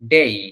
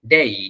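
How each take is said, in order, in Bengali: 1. স্বরধ্বনিটি 'ee' ধ্বনিতে গড়িয়ে যায়। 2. স্বরধ্বনিটি 'ee' ধ্বনিতে গড়িয়ে যায়।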